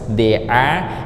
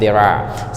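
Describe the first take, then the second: First: The phrase is said at a normal, careful pace. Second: The phrase is said quickly and run together.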